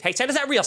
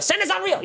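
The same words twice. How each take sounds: First: Higher mocking call of Santa's not real toward the kids; petty taunt aimed at the kids. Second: Much higher, squealed Santa's not real, topping the first call; childish escalating taunt; shrieked taunt. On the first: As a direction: tease the kids with it. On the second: Retold or imitated. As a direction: scream the spoiler at the kids. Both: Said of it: "my reaction was".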